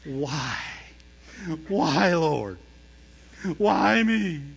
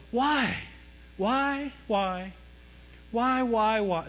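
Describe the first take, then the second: First: Drawn-out pleading cry to heaven; mock conviction. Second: Higher-pitched, repeated pleading whys; plaintive whys. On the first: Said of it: "They'll do it with conviction". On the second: Retold or imitated. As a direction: ask why over and over, imitating a complainer. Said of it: "You know, you have people go".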